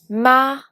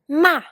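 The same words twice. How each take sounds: First: The syllable carries the second tone. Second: The syllable carries the fourth tone. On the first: "pour le deuxième ton" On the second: "pour le quatrième ton"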